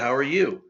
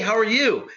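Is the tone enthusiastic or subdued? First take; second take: subdued; enthusiastic. First: It is said in a calm, subdued way. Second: It is said with lively enthusiasm. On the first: The person is friendly but reserved. "Megan here is a lot more subdued" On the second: The person is eager and outgoing. "Tatum was all like"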